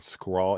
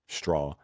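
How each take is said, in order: First: The word begins with a 'skr' sound. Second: The word begins with a 'str' sound. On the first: Other people said it this way. The speaker calls it wrong. "when people were saying like Elementary and Scrawl and Screet" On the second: The speaker said it this way. The speaker calls it right. "So I would say street straw"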